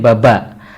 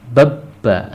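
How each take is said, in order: First: The middle b is short and single. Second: The middle b is held and doubled. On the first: "Kalau ini kan tidak ada kan jadi baba" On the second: "karena ada angka tiga tidurnya jadi bab ba"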